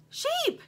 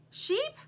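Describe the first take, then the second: First: Very high, louder insistent call; urgent call. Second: High rising call. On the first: Lumpy calling the sheep more urgently, high shout. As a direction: shout for her now. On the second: Lumpy calling the toy sheep, high call. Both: A narrator's reading.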